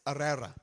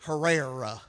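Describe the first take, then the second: First: The name begins without any H sound. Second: The name begins with an audible H sound. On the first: The speaker calls it right. "You're not supposed to pronounce the H. But it's Herrera" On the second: The speaker calls it wrong. "Us hillbillies are used to pronouncing the H. We would say Herrera"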